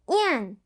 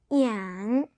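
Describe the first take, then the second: First: The pitch falls sharply from high. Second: The pitch dips low then rises.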